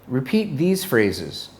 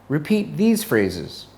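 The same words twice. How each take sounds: Both takes have the same delivery.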